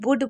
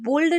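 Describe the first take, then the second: First: No L sound is heard in the word. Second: An L sound is heard in the word. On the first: The speaker calls it right. "इसको वुड पढ़ना है" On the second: The speaker calls it wrong. "इसको बुल्ड नहीं पढ़ना"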